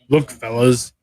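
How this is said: It is said in a put-on character voice.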